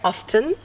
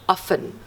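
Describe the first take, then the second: First: The T sound is clearly pronounced. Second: The T sound is silent. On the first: The speaker calls it wrong. "we do not say often" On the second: The speaker calls it right. "we say often. We drop it"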